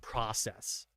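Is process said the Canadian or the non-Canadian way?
non-Canadian. It is pronounced the non-Canadian way. The speaker calls it wrong. "that is such a more beautiful pronunciation than process"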